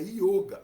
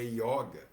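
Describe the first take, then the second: First: The 'o' vowel is closed. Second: The 'o' vowel is open. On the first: This is the original Sanskrit pronunciation. "A pronúncia sânscrita é yoga" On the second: This is the habitual Portuguese pronunciation. "a pronúncia em português é yoga"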